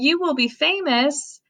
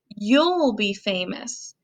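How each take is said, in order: First: You will is said as two full words. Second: You will is shortened into one syllable.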